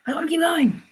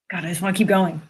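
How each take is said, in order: First: High whiny plea; higher pleading whine; whiny longing. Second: Said in the usual way. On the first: Real, not acted. Repeated wish, second higher.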